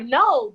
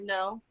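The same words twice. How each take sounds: First: The word is said sharply and with annoyance. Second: The word is said flat, without emotion. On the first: It is a rude refusal. "no, the fuck, I don't want to do that" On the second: It is a plain refusal that is hard to read. "I don't have no emotion in my voice or my tone"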